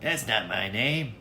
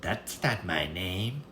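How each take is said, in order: First: Higher, slow teasing little man; smug imp. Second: Slow, softer teasing little man; drawn-out mocking refusal; smug imp. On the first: Acted. Little man teases the queen, slow and smug. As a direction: savour the refusal. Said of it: "smiled and said". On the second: Little man refuses again, slow and soft. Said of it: "said again and again".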